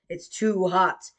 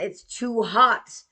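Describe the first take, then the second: First: Said in the usual way. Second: Drawn-out, louder complaint; slow insistent whine. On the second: Retold or imitated. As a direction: stretch it out in protest. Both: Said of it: "And I'm like".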